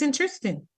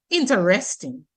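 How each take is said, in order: First: Interesting squeezed short, as in-tris-ting; constricted pronunciation. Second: Interesting with every syllable sounded out; careful full pronunciation. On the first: Linguist shows how speech squeezes letters, constricted pronunciation. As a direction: run the middle of "interesting" together. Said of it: "group of letters get constricted". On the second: Linguist shows listeners the spelt-out word, careful full pronunciation. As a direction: say "interesting" in full, in-ter-est-ing. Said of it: "when you say it". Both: Shown as a demonstration.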